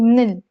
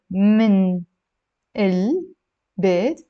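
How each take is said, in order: First: من ال fused into a stressed "mnil"; merged sounds. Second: من البيت broken up slowly as "min, el, beit"; separated words. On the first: Teacher showing the reversed vowel, merged and emphatic. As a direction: punch من ال as one syllable, "mnil". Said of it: "you're saying". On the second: Teacher spelling out what not to say, slowly separated. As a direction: pause between من and each part of البيت. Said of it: "instead of saying". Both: Shown as a demonstration.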